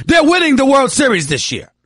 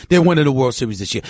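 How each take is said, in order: First: Loud, high proud boast; excited shout. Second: Said in the usual way. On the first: Real, not acted. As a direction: belt it out like a fan. Repeats Yankees boast, second shouted.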